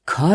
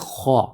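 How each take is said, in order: First: The letter is sounded light, without a full mouth. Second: The letter is sounded heavy, with a full mouth. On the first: The speaker calls it wrong. "ये लफ्ज़ खा नहीं है" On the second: The speaker calls it right. "इसको मुंह भर के अदा करना है"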